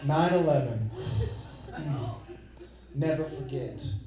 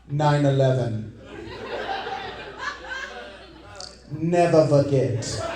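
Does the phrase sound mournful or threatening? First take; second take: mournful; threatening. First: It is said in a sad, solemn tone. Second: It is said in a menacing, threatening tone. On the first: The attack is remembered with grief. "like you and I would mean" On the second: The attack is recalled as a warning. "Don't you forget what I'm capable of"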